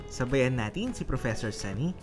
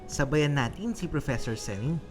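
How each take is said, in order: Both takes have the same delivery.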